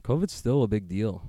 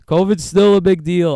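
First: Said in the usual way. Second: "covid's still a big deal" said higher and louder, mocking; mock cavalier. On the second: Shown as a demonstration. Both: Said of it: "I sound so cavalier about it".

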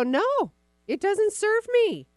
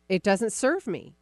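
First: High, slow and emphatic, every word of "No, it doesn't serve me" leaned on; a coach showing how to shut a thought down; firm emphatic refusal. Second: Said in the usual way. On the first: Shown as a demonstration. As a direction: say "No" high and drawn out like you truly mean it. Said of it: "literally look at that and go". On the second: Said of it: "honestly saying out loud".

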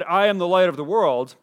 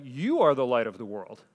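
First: Am leaned on in I am the light of the world; quoting Jesus, the word am stressed. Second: You hit first and harder in You are the light of the world, lower overall; quoting Jesus, contrast lands on You; stress on YOU. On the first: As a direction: press the word am. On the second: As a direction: punch the word You. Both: Retold or imitated. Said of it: "but he also said".

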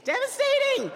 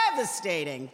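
First: Devastating wailed in a huge high swoop, louder. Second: Said in the usual way. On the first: Shown as a demonstration. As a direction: cry out devastating like a mock tragedy.

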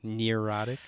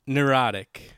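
First: "Neurotic" said as near-OT-ic, questioning; own mispronunciation. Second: "neurotic" said as nur-OT-ic; corrected pronunciation. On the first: Checking how they said it, "Neurotic" as near-OT-ic. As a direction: say "Neurotic" with an ear sound, rising at the end. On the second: Trying the word after being queried, "neurotic" as nur-OT-ic. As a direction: say "neurotic" with a short nur start. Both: Shown as a demonstration. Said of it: "How did I say it?".

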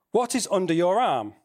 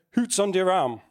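First: Said in the usual way. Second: Put-on a light Yorkshire Bradford accent, hoots for what's. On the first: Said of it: "which that meant in his British". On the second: Preacher quoting Wigglesworth at the door, light Bradford accent. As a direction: mimic a gruff old Bradford preacher in Bradford accent. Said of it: "in his British forward slash Bradford accent".

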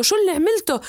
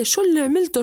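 First: Even higher, louder repeat of the shout; father shouting harder at Omar; angrier yell. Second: Higher, louder furious shout at his son; angry father yelling. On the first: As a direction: push the rage up a notch. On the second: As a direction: start the father's scolding. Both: Acted. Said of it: "صار يصيح عليه".

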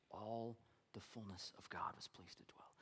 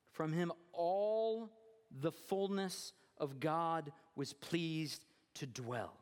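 First: Low near-whisper, very soft; hushed repetition. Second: Slow, drawn-out proclamation; deliberate pulpit climax, word by word; emphatic scripture reading. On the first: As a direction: let the verse sink in quietly. Repeats verse for reflection. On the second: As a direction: stretch each phrase with weight. Scripture climax, then repeated hushed. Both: Acted.

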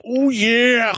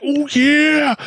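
First: High, loud "Oh yeah!" wrestler shout; Macho Man Randy Savage. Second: High gravelly-free "Oh yeah!" shout, much higher and louder; Macho Man Randy Savage. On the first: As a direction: hype it like a wrestling promo. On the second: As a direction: bellow it like a wrestling promo. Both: Retold or imitated. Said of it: "them saying Macho Man shit".

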